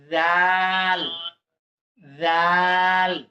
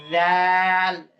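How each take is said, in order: First: জাল said softly with the tongue tip, stretched long; soft drawn-out zal. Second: Said in the usual way. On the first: Shown as a demonstration. Teacher shows the soft জাল to students, stretched long. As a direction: soften জাল and hold it. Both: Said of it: "এটা নরম করে".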